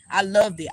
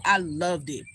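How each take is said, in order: First: "loved" hit harder and louder; louder emphatic "I loved it"; emphatic repeat. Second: Said in the usual way. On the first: Real, not acted. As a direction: lean hard on "loved".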